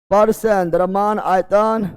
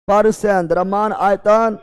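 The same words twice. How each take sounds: The two takes are said the same way.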